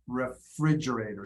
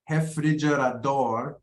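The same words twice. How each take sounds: First: "refrigerator" stressed on FRIDGE; second-syllable stress. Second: "Refrigerador" fairly even, weight on final DOR; Portuguese end stress. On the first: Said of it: "second syllable". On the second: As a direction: stretch the last syllable of "Refrigerador". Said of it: "stress in Portuguese tends to go to the end". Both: Shown as a demonstration.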